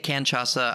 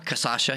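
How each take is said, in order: First: An n sound comes before the ch sound. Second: No n sound comes before the ch sound. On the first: The speaker calls it wrong. "I mispronounce it all the time" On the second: The speaker calls it right.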